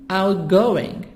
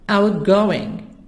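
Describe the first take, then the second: No difference in how they are said.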